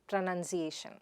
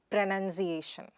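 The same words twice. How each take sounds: The two takes are said the same way.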